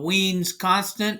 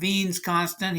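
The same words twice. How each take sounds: First: The name is said with an English pronunciation. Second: The name is said with a German pronunciation. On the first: The speaker calls it wrong. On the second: The speaker calls it right.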